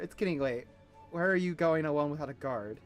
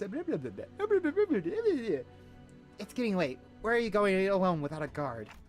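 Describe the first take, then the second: First: It is read in a plain, everyday voice. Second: It is read in a put-on character voice. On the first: The speaker calls it wrong. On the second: The speaker calls it right.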